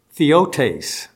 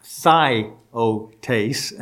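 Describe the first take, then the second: First: Theotes as THEE-oh-tays; pronunciation of theotes. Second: Theotes slowly as THIGH, oh, tays; pronunciation of theotes. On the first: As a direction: say "theotes" with "ee" in the first syllable. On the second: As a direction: sound out "theotes" syllable by syllable with a long "eye". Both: Shown as a demonstration. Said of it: "is how it's pronounced".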